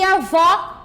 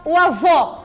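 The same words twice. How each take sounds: First: Avó with an open final o; stressed open ó at the end of avó. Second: Avô with a closed, rounded final o; stressed closed ô at the end of avô. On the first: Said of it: "utilizamos o acento agudo". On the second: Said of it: "o acento circunflexo também podemos". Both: Shown as a demonstration.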